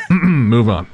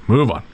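First: Laughing. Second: Said in the usual way. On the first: Real, not acted. Laughing, clears throat.

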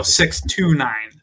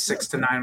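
First: "six to nine" slow and loud, word by word; "six to nine" spelled out slowly to correct a mishearing; slow, separated correction. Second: "six to nine" run together quickly; "six to nine" slurred into one quick number; said too fast. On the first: Shown as a demonstration. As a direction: stretch out "six to nine" as three separate words. Correcting misheard number, separating the words. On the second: Real, not acted. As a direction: rush "six to nine" so it blurs into sixty-nine. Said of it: "You said it too fast".

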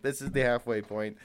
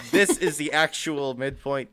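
First: Said in the usual way. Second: Laughing emphatic announcement; emphatic final answer. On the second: Real, not acted. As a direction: punch "this", louder and laughing. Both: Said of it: "But final answer".

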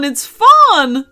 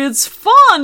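First: Loud cheerful repeat; cheery dinosaur. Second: Very high, loud gleeful fun; high, loud delighted dinosaur; cheery dinosaur. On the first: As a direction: settle the second fun down. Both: Acted. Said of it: "said the dinosaur cheerily".

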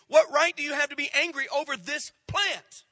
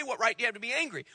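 First: "What right do you have to be angry over this plant?" with WHAT hit hard; full question stressed. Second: Said in the usual way. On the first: Shown as a demonstration. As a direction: lean on "What" and carry it through to "plant". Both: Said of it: "He doesn't even say".

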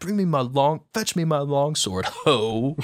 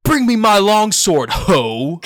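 First: Offhand, tossed-away "ho" at the end; dismissive. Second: Loud high shouted call to arms; hammed-up battle cry. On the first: Shown as a demonstration. Retelling how the line should sound, dismissive and casual. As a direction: brush it off like a casual aside. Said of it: "a dismissive". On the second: Schoolboy playing Friar Lawrence hams up his line in class, shouting. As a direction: bellow it like a warrior calling for his sword. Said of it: "it's like inflection".

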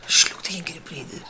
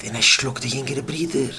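First: A tired whispered echo; whispered repeat. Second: Said in the usual way. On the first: Shown as a demonstration. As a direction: whisper it back, drained. Repeats line, second time whispered. (שטיל געשעפטשעט)

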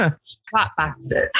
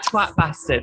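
First: Slow savouring. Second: Said in the usual way. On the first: Pretend. Swear word slowly savoured.

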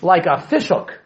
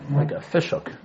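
First: Said in the usual way. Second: Dropped soft, almost to himself; soft repeat of a fishhook image; quiet echo. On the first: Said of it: "teacher repeats the image". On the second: Shown as a demonstration. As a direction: let the repeat sink in quietly. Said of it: "teacher repeats the image, softer".

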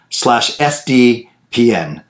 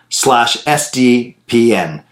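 Both takes have the same delivery.

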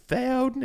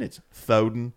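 First: High doting granny voice; grandma voice. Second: Said in the usual way. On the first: Acted. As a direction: coo it like a grandma. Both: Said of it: "say in grandma voice".

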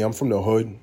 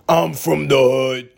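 First: Said in the usual way. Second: Slow, loud catchphrase; catchphrase call. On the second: Pretend. Comedian repeating his catchphrase, drawn-out and loud. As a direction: draw it out loudly like a signature catchphrase.

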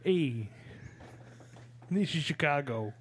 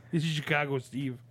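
First: Chicago accent. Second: Chicago accent pushed louder. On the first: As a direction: show off your Chicago accent. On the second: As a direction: lean harder into the Chicago accent. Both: Shown as a demonstration. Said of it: "Can you do it again?".

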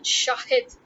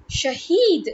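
First: "Shahid" as SHAH-hid, long ah, short i; different name Shahid. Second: "Shahid" as sha-HEED, punched on a long ee; different name Shahid. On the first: Contrasting two different names, Shahid with short i. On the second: Contrasting two different names, Shahid with long ee. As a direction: hit "Shahid" loud on its long heed ending. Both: Shown as a demonstration. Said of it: "is a completely different name".

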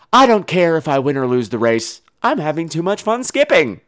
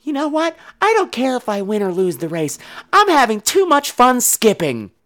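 First: Said in the usual way. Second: Put-on high, light child's voice; childlike, slowing on the last phrase; carefree little girl. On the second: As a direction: imitate a skipping child who couldn't care less. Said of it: "the other girl just keeps skipping, ... and she says".

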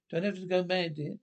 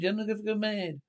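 First: Said in the usual way. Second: Higher-pitched, insistent repetition; raised pitch, making the point a second time; insistent repeat. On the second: Acted. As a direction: repeat it pointedly for someone who didn't hear. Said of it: "I said".

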